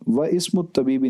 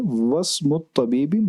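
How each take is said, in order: First: The 'i' of 'ismu' is pronounced separately. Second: The 'i' is dropped, joining 'wa' to 'smu'. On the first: The speaker calls it wrong. "नहीं" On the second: The speaker calls it right. "बल्कि"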